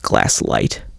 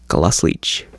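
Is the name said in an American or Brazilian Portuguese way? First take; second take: American; Brazilian Portuguese. First: It is said with an American English pronunciation. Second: It is said with a Brazilian Portuguese pronunciation. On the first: "Most American collectors pronounce it Glass-Lite" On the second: "the correct Brazilian Portuguese pronunciation is Glaslich"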